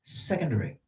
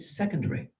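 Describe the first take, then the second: First: It is said with a British accent. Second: The same.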